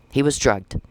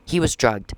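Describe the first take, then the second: No difference in how they are said.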